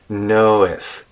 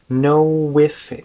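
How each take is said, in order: First: The lips stay relaxed with no w glide. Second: A rounded w glide links the two words. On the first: "relax our lips and say, know if, with no lip movement at all" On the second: "we could kind of do a w sound"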